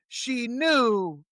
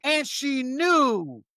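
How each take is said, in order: First: Said in the usual way. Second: "knew" dragged out slowly and leaned on; slow down and land on "knew"; emphatic, slowed "she knew"; slow stress on knew. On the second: Real, not acted.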